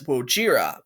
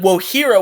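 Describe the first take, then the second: First: The middle consonant is a J sound. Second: The middle consonant is an H sound. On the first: This follows the spelling. "because of the spelling, most people would pronounce it as Wojira" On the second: This is the intended original name. "Wohira was supposed to be the original name"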